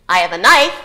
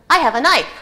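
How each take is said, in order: First: "I have a knife" loud, with the pitch rising on "knife"; loud questioning rise. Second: "I have a knife" raised and loud, punching "I", falling at the end; higher, louder emphatic statement. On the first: Lecturer shows another intonation, loud rising "knife". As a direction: end "knife" on a loud upward tune. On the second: Lecturer shows an attitude towards the knife, emphatic fall. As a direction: stress on "I", said boldly. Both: Shown as a demonstration. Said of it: "that was poor intonation".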